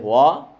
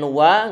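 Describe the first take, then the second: First: The vowel is thick and heavy. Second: The vowel is thin and light. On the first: The speaker calls it wrong. "nggak boleh wa" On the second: The speaker calls it right. "Wa tipis"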